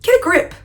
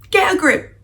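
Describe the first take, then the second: First: Higher, louder exasperated snap; exasperated get a grip. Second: Higher, louder, firmer repeat; repeated exasperated get a grip. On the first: Reacting to the clingy heroine, exasperated and higher. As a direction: tell her to pull herself together, fed up. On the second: Reacting to the clingy heroine again, louder and fed up. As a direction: say it again, even more fed up. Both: Retold or imitated. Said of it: "And I'm like".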